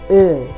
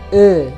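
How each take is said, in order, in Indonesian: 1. Vokal itu diucapkan dengan bunyi tertutup. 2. Vokal itu diucapkan dengan bunyi tertutup.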